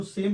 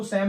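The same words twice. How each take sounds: First: सेम with a long 'ay' vowel; सेम rhyming with game; correct pronunciation. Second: सेम with an open 'sam' vowel; wrong pronunciation. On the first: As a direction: say सेम as English 'same'. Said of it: "इसको सेम पढ़ना है". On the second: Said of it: "इसको सेम नहीं पढ़ना है". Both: Shown as a demonstration.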